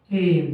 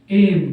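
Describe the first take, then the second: First: Said in the usual way. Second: Loud announced word. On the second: Shown as a demonstration. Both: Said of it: "अगला word है हमारे सामने".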